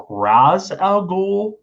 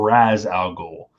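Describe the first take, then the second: First: Ra's al Ghul with Ra's as RAHZ; first pronunciation. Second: Ra's al Ghul with Ra's as RAZ, slowly; second pronunciation. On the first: Quiz host asking the chat, Ra's al Ghul said as RAHZ. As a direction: open AH vowel in Ra's al Ghul. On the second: Quiz host offering the chat an alternative, Ra's al Ghul said slowly as RAZ. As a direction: draw out Ra's as RAZ, rhyming with jazz. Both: Shown as a demonstration. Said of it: "do you pronounce this".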